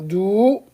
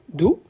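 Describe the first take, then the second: First: The vowel is held long. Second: The vowel is said short. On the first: "Si je prolonge" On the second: "c'est court"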